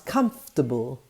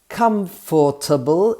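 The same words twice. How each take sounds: First: The 'or' syllable is dropped. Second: Every syllable is pronounced.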